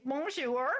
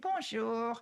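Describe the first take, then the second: First: It is said with a heavy American accent. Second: It is said with a sad, mournful feeling. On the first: "with a heavy American accent" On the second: "give it a little bit of a sad feeling"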